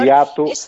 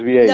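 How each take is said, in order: First: The middle vowel sounds like a plain 'a'. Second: The middle vowel sounds like an 'ei' glide. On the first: The speaker calls it wrong. "me decís Viato" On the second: The speaker calls it right. "pero es Vieito"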